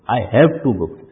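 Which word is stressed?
have. The stress falls on the word have.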